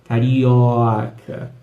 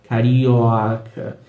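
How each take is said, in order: No difference in how they are said.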